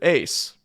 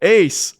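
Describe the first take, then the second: First: The name is called at a quiet volume. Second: The name is called at a loud volume.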